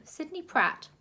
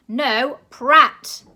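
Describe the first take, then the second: First: Said in the usual way. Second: Very loud correcting shout; loud correction. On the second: A narrator's reading. Grandma shouting the name at the director, very loud. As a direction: bellow the name at him.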